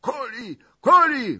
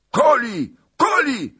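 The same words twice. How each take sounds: First: High falling shout; cossacks shouting. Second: High yelled cry, falling; cossacks yelling. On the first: Cossacks shouting for the kill, high. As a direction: call it out as a mob. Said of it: "wolali molojcy". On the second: Cossack mob yelling for the kill, high and loud. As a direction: bellow it as a mob. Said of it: "zawrzasnęli molojcy". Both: Acted.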